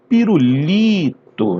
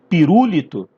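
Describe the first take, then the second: First: The stress falls on the third syllable, li. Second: The stress falls on a syllable other than the third. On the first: The speaker calls it right. "Vai ser o li do pirulito" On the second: The speaker calls it wrong. "Não, né? Você não fala pirulito"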